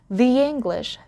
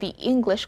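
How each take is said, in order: First: A Y sound links 'the' and 'English'. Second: No Y sound links 'the' and 'English'. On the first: "I inserted the Y sound in between the and English" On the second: "I don't say"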